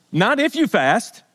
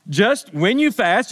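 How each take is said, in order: First: "if" hit as the rejected word, a little slow; stress on IF. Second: "when" hit firmly, a little slow; stress on WHEN. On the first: Pastor contrasting if with when, stressing "if". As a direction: land on "if" to set it aside. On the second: Pastor insisting it's when, stressing "when". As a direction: lean on "when" as the sure one. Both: Shown as a demonstration.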